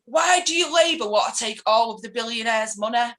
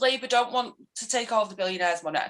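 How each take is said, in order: First: Lightly imitated indignant demand; mild mock confrontation; retold challenge. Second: Measured, matter-of-fact correction; patiently setting the facts straight; retold factual reply. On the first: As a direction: fire it as an accusing question. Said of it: "her husband comes marching down the hallway". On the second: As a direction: answer the accusation evenly. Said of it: "trying to give him facts".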